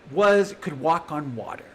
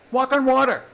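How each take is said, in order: First: Said in the usual way. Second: "Walk on water" repeated higher, with a falling stress on "on"; emphatic repeat. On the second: Real, not acted. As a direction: raise the pitch and hit "Walk on water" hard.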